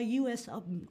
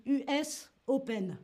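First: "U S Open" with English letter names, you-ess; English pronunciation. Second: "U S Open" with French U, u-ess o-pen; French pronunciation. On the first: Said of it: "on dit pas U S Open". (« U S Open » à l'anglaise, « you-ess ») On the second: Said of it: "En français, on dit". (« U S Open » à la française, « u-ès o-pèn ») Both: Shown as a demonstration.

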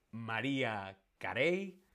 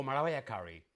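First: "[name]" slowly as ma-REE-a ka-RAY; Spanish pronunciation. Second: "[name]" as ma-RYE-a KA-ree; English pronunciation. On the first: Teacher asking how Spain says it, Spanish pronunciation. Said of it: "En España decimos [name]". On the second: Teacher offering the alternative, English pronunciation. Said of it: "no [name]". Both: Shown as a demonstration.

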